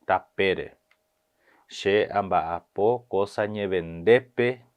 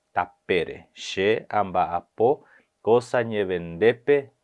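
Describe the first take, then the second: No difference in how they are said.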